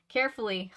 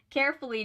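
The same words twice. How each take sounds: First: Said in the usual way. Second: Higher, faster, laughing at the word; eye-roll read. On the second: Shown as a demonstration. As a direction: say Carefully, with a mocking eye roll. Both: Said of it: "pause for eye roll".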